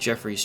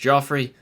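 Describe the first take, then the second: First: The first vowel sounds like in 'jeff'. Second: The first vowel sounds like in 'joff'.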